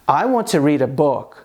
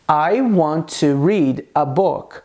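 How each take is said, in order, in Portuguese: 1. As palavras são ditas juntas, com os sons ligados. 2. Cada palavra é dita separadamente, com pequenas pausas. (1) "como fica essa frase no dia a dia de uma maneira mais natural" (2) "eu pronunciei essas palavras de uma maneira que é separada"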